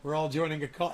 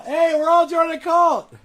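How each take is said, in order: First: Said in the usual way. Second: High, loud gleeful yell; excited shout. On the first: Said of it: "repeated louder". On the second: Shown as a demonstration. Mocking his critics with a gleeful shout. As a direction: shout it out like a cheer. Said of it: "same words, shouted".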